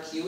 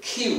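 First: Said in the usual way. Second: কিউ with an aspirated K, "khyoo"; corrected Q sound. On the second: Shown as a demonstration. Teacher correcting how children say the letter, aspirated কিউ. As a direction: puff of air opening কিউ. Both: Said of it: "not কিউ, it will be".

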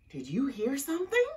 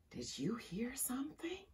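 First: Quick, high, voiced question; alarmed question. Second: Soft, breath-only question; whisper. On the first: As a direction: ask it fast with rising pitch, startled. Same question later repeated in whisper. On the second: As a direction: whisper it from inside a tent. Someone in tent hears noise. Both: A narrator's reading.

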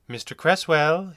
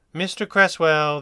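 First: Gentle, slow bedside-doctor greeting; mild, slow kindly doctor voice. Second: Slow, louder commanding address; firm, louder authoritative doctor; with authority. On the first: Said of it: "he said kindly". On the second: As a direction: call his name like you own the room. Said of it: "his voice betraying more authority". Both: Acted.

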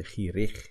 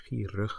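First: Gierig with a full, clear "ikh" on the -ig; overpronounced ending. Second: Gierig with the -ig weakened to "ukh"; reduced ending. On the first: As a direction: wrongly give gierig a strong "ee-rikh" ending. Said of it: "you don't say gierig". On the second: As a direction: say gierig, letting the last vowel fade to "uh". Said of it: "you say gierig". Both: Shown as a demonstration.

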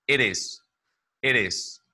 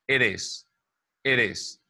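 The two takes are said the same way.

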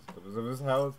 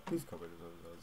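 First: Said in the usual way. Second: Hushed warning. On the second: Real, not acted. Homeowner approaching, hushed.

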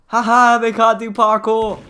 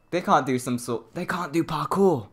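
First: Loud laughing taunt, pitched up; gloating taunt. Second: Said in the usual way. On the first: Real, not acted. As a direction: gloat at them from safety. Gloating at stuck murderer.

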